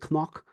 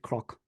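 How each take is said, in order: First: The word begins with an N sound. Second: The word begins with a K then R sound. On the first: This is the Munster way, spread by standardised spelling. "that's a Munster pronunciation" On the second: This is the local Ulster way of saying it. "the word for hill in Ulster Irish is croc"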